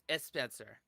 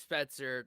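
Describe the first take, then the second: First: An extra vowel sound comes before the S. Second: The name starts directly with the S sound. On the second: "my name's Spencer"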